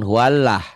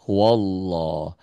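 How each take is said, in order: First: An extra hu sound comes before the w. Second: The word starts directly with a w sound. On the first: The speaker calls it wrong. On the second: The speaker calls it right.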